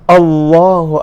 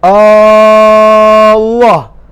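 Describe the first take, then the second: First: The first vowel is short. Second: The first vowel is drawn out long. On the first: It states that God is the greatest. The speaker calls it right. "sepatutnya bunyi takbiratul ihram Allahu Akbar" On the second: It asks whether God is the greatest. The speaker calls it wrong. "dia panjangkan hamzah tu"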